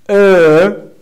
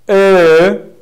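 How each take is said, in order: Both takes have the same delivery.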